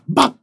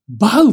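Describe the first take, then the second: First: The syllable is cut off short and abruptly. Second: The syllable glides into a trailing 'u' vowel. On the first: The speaker calls it right. "バの後は小さいつなんだよ" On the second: The speaker calls it wrong. "バウじゃなくてさ"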